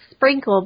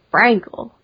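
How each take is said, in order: First: The word is said in a plain, ordinary way. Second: The word is said with a put-on accent. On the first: "which is like Sprinkle" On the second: "but it's like you're saying it with an accent, like Sprinkle"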